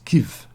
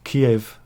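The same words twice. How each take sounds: First: It is said with the Ukrainian pronunciation. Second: It is said with the Russian pronunciation. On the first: This is the name used by Ukraine. "That's the Ukraine pronunciation of it" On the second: This is the name used by Russia. "Kiev was the um, Russian name of it"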